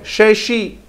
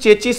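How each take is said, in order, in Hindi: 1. शब्द sh की ध्वनि से शुरू होता है। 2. शब्द ch की ध्वनि से शुरू होता है। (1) "होता क्या ये" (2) "लोग इसको चेचिस चेचिस बोलते हैं"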